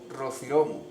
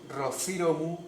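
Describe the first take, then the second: First: The stress is on the syllable ro. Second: The stress is on the syllable ci. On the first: "o en ro" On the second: "podemos acentuar en sí"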